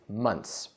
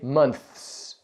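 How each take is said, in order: First: The TH sound is left out before the s. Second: The TH sound is pronounced before the s. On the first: The speaker calls it right. "We just say months" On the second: The speaker calls it wrong. "We don't say months. That's too difficult"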